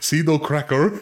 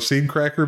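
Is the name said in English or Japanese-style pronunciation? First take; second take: Japanese; English. First: It is said with Japanese-style pronunciation. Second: It is said with plain English pronunciation.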